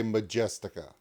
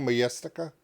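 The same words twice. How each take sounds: First: Majestica with a hard English J, as in "jet"; English-style J. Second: Majestica with a Y sound for the J; Swedish-style pronunciation. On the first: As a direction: say Majestica as "ma-JES-tica". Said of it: "or can I just say Majestica?". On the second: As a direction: say Majestica as "ma-YES-tica". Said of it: "'Cause it's a J". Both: Shown as a demonstration.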